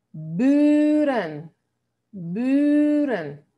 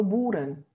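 First: 'buren' with a long, rounded ü; drawn-out 'buren', fronted ü; correct long ü. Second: 'buren' with a Spanish oo, like 'booren'; 'buren' said with oo instead of ü; wrong vowel demo. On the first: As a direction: model 'buren' loud and slow, stretching the first vowel. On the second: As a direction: show the mistake: 'buren' with a back u. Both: Shown as a demonstration. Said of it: "Y no buren".

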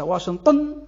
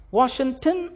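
First: "واشنطن" with a heavy, dark ط; Arabized "واشنطن", thick emphatic T; emphatic Arabic T. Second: "واشنطن" with a light, plain T; light T, not emphatic, in "واشنطن"; soft T pronunciation. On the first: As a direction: hit the ط hard in "واشنطن". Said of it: "نطقها على راسها". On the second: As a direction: say "واشنطن" as foreign Washington, with a soft T. التاء يخ-، يخلونها طاء. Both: Shown as a demonstration.

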